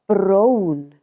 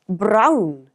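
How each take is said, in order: First: The vowel is said with more lip rounding. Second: The vowel is said with less lip rounding. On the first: This is the Welsh way of saying it. "but brown in Welsh. Notice the more rounded O sound in Welsh" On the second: This is the English way of saying it. "It's brown in English"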